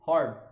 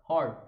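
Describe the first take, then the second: The two takes are said the same way.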